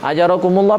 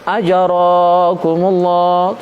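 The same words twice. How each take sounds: First: The middle vowels are all kept short. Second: A vowel in the middle is held long. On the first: The speaker calls it right. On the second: The speaker calls it wrong. "Jangan dibaca ajarakumullah. Itu salah"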